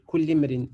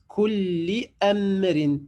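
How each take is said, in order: First: The words run together without a glottal stop. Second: A glottal stop is heard before amrin. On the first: The speaker calls it wrong. "je ne vais pas dire" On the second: The speaker calls it right. "je dis kulli amrin"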